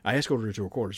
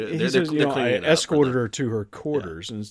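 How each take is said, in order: First: It is said in a clean, matter-of-fact tone. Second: It is said in a suggestive, insinuating tone. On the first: Nothing more happened than the words say. "Very clean, very, very matter of fact" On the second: Something more happened than the words say. "He didn't say it that way"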